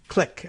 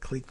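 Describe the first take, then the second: First: The vowel is short, like in 'kick'. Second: The vowel is long, like in 'seek'. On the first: "I guess is the way we actually say that" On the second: "it looks like clique"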